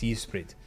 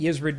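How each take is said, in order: First: The name is said with a Welsh pronunciation. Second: The name is said with an English pronunciation. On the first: "The Welsh pronunciation is" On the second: "that's the Western pronunciation"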